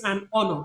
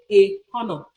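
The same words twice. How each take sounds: First: "an honor" with silent h; correct pronunciation. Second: "a honor" with the h sounded; mispronunciation demo. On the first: Lecturer giving the right form, silent h in "honor". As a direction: link "an" straight into "honor", no h. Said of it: "You say it's an honor". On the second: Lecturer showing the error, "a honor" with h. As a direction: breathe an h into "honor". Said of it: "you cannot say". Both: Shown as a demonstration.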